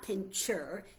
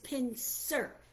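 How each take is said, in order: First: The middle consonant is a 'ch' sound. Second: The middle consonant is an 's' sound. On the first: The speaker calls it wrong. "but it is not pincher" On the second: The speaker calls it right. "It is pincer, P I N C E R"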